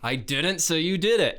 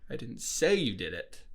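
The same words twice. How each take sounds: First: The stress is on the word didn't. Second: The stress is on the word say.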